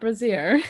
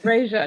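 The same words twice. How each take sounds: First: The word does not rhyme with Frasier. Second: The word rhymes with Frasier. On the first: The speaker calls it wrong. "not brazier" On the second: The speaker calls it right. "Yes, brazier"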